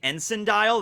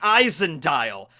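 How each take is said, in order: First: The first word begins with an 'en' sound. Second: The first word begins with an 'eye' sound. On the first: The speaker calls it wrong. "I've been calling it the Ensign dial" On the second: The speaker calls it right. "originally pronounced Eisen"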